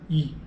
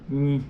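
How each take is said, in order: First: The vowel is oral, with no nasal sound. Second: The vowel is nasal, air through the nose. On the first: "O i oral é i" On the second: "o i nasal é in"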